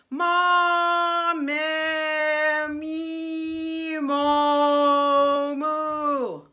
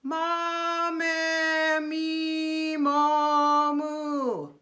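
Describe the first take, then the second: First: Vowels held long with the placement jumping from vowel to vowel; bouncing placement. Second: Vowels held long in one steady placed tone; steady placement. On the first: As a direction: show the wrong way, sound shifting between vowels. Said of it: "placement bouncing all around". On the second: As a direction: keep every vowel in the same spot. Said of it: "placement staying in the same place". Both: Shown as a demonstration.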